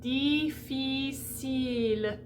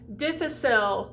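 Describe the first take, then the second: First: The I vowels are a closed E sound. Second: The I vowels use an open English-like vowel. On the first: The speaker calls it right. "Make the commitment to close the space in the mouth to E" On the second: The speaker calls it wrong. "Please don't do a capital I, which is an I"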